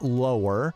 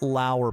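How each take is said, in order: First: The name is said to rhyme with lower. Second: The name is said to rhyme with power. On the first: The speaker calls it wrong. "he likes to say it lower" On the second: The speaker calls it right. "rhymes with power"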